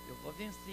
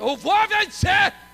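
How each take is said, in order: First: It is said quietly, without shouting. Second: It is shouted loudly.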